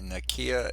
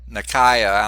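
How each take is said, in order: First: The middle vowel sounds like ee, without eye. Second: The middle vowel is a long eye sound. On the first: The speaker calls it wrong. "Did I pronounce it right that time?" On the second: The speaker calls it right. "I put a, a long I over it"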